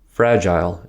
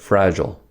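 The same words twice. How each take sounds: First: It is said with a British pronunciation. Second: It is said with an American pronunciation. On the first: "in England" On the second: "in America"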